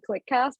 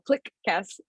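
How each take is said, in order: First: It is said as one smooth word. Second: It is split apart with an overstressed k. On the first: It is the name spoken in conversation. "When I'm talking about the podcast, I call it clickcast" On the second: It is the handle read off the screen. "I separate it weirdly, and I overpronounce the Q"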